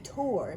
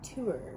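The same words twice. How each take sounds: First: The word rhymes with 'more'. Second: The word is said like 'tour'. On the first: The speaker calls it right. "this is an appropriate time to say tour" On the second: The speaker calls it wrong. "not tour"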